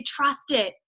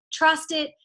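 First: Said in the usual way. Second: Trust pushed a little higher; urging, with Trust leaned on; stress on Trust. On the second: Shown as a demonstration. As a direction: lean on the word Trust.

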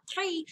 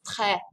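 First: "très" as "tray", closed ay; "très" higher and softer with a wrong ay vowel. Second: "très" with open eh, no glide; "très" short and open, "treh"; correct très. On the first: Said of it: "but it's not très". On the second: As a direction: say "très" to rhyme with the vowel in jet. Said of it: "it's très". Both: Shown as a demonstration.

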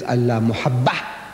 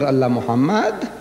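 First: "Muhabbah" slowly, with a doubled b and open "-bah" ending; corrected to Muhabbah. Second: "Muhammad" ending in "-mad", lifted at the end; misread Muhammad. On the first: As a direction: spell out "Muhabbah" by ear, b in place of m. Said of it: "it's Allah Muhabbah". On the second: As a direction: say "Muhammad" clearly with m sounds in the middle. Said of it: "But this is not". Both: Shown as a demonstration.

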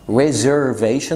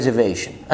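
First: Reservation slow, every R sounded; the careful form of reservation, middle R pronounced; full R pronunciation. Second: Reservation said as rezevation, middle R dropped; slow reservation, the second R left out; reservation without middle R. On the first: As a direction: say reservation with the middle R fully kept. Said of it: "ما بنقولش". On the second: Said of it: "بنقول". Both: Shown as a demonstration.

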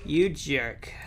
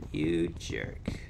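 First: Said in the usual way. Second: Much lower, softer growl of a jerk; deep mock insult. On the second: Gamer scolding the game, deep low mock growl. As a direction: drop the voice way down.

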